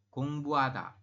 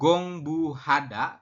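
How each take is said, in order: First: The h sound in the middle is dropped. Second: The h sound in the middle is pronounced. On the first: The speaker calls it right. "tapi dibacanya adalah gong buada" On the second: The speaker calls it wrong. "Jadi Anda bacanya bukan gong bu hada"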